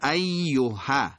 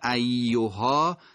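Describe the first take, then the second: First: The final vowel is cut short. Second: The final vowel is drawn out long. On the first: "به حرکت کوتاه ا تبدیل میشه" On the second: "حرکت در واقع کشیده آ"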